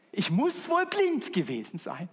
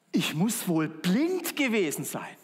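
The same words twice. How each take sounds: First: Higher, stress on wohl, rising; saying with rising stress. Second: Slow, stress on blind; saying quoted slowly. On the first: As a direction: lift the word wohl knowingly. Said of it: "Kennt ihr, oder?". (höher, Betonung auf „wohl“, steigend) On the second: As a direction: let the word blind carry it. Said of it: "die Redewendung". (Betonung auf „blind“, langsam gesprochen) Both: Shown as a demonstration.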